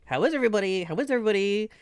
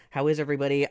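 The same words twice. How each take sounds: First: Sing-song question. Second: Said in the usual way. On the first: Acted. Greeting repeated, higher.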